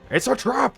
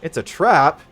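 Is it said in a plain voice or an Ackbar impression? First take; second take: Ackbar impression; plain voice. First: It is said imitating Admiral Ackbar's voice. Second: It is said in his plain voice.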